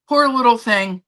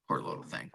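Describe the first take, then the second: First: Poor little thing said out loud, higher and louder; louder pity. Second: Whispered pity. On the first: Owner repeating aloud her pity for the cat, louder and higher. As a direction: say it aloud now, full voice of pity. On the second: Owner whispering pity over her sneezing cat, whispered. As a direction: whisper Poor little thing, no voice at all. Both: Real, not acted.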